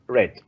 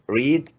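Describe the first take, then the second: First: The vowel is short, like 'red'. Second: The vowel is long, like 'reed'. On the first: It is the past participle of the verb. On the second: It is the present form of the verb.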